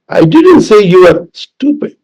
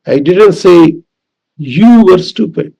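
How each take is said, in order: First: Slight break before an emphasized "stupid"; stress on STUPID. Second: Pause, then lean on "you"; emphasized "you" after a short break; stress on YOU. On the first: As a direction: hold back, then land on "stupid". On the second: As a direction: set "you" apart and stretch it. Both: Shown as a demonstration. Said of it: "depending on which word is emphasized".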